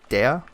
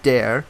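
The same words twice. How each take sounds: First: It is said with a German accent. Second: It is said with an English-sounding accent.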